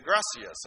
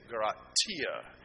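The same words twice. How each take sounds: First: Gracias with an s sound for the c; Latin American gracias. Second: Gratia with a t in place of the s; lower, t sound in Gratia; Spain-style gracias. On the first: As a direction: say "gracias" as GRAH-see-ahs. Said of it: "Mexican Spanish is gracias". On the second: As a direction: say "Gratia" as grah-TEE-ah. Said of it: "it's a T". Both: Retold or imitated.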